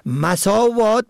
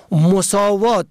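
First: مساوات said as masavat, a first; fatha on first letter. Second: مساوات said as mosavat, o first; damma on first letter. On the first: Teacher contrasting homographs, masavat with fatha. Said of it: "به فتح اول". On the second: Teacher contrasting homographs, mosavat with damma. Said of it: "به ضم اول". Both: Shown as a demonstration.

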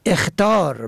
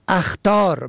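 First: اخطار said "ekhtar"; کسره on first letter. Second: اخطار said "akhtar"; فتحه on first letter. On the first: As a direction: start اخطار with a short e. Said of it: "کسر اول". (اخطار با کسرهٔ الف: اِخطار) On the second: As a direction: start اخطار with a short a. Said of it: "به فتح اول". (اخطار با فتحهٔ الف: اَخطار) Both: Shown as a demonstration.

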